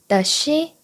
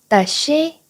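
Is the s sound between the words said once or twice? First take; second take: once; once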